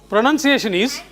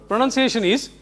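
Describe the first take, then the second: Both takes have the same delivery.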